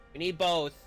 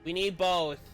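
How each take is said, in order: Both takes have the same delivery.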